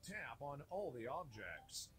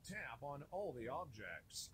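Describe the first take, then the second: No difference in how they are said.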